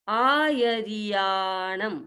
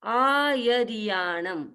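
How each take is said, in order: Both takes have the same delivery.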